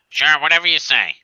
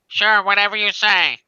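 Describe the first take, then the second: First: It is said in a man's voice. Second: It is said in a woman's voice.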